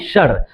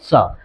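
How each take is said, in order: First: It is said with a common Indian English accent. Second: It is said with a British English accent. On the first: The speaker calls it wrong. "हम लोग कहते हैं इसको सर कहते हैं, जबकि ये सरासर गलत है" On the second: The speaker calls it right. "अगर आप ब्रिटिश इंग्लिश में इसको कहना चाहेंगे"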